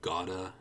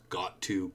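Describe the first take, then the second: First: The words blend into one reduced form. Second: Both words are said fully and separately.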